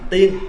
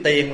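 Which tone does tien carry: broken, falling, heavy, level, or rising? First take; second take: level; falling. First: The syllable has a level mid tone. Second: The syllable has a low falling tone. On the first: It means an immortal or fairy. "không có dấu" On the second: It means money. "chữ tiền là dấu huyền"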